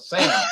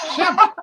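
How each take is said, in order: First: The name is said in a plain accent. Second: The name is said in a Russian accent. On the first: "his name is Sam" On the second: "his mother pronounced Sam with her Russian accent Shemp"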